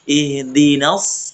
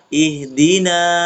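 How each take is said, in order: First: The final vowel is short and runs into the next word. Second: The final vowel is lengthened before a stop. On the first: "dibaca tidak panjang. Ketika wasl. Wasl itu bersambung" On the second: "kan berhenti kan? Waqaf namanya"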